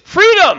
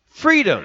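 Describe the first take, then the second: First: The word is said loudly with strong conviction. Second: The word is said at a plain, moderate level. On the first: "Say it like you mean it" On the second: "Say it with me"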